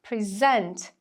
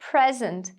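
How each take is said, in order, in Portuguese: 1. A sílaba tônica é a segunda. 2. A sílaba tônica é a primeira. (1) "Para os verbos, a sílaba tônica vai ser a segunda" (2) "os substantivos... vão ter a sílaba tônica marcada ali na primeira"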